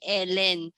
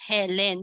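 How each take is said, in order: First: The name begins with a vowel, no h sound. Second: The name begins with an audible h sound. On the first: The speaker calls it wrong. "Don't say Ellen" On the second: The speaker calls it right. "address it as Helen"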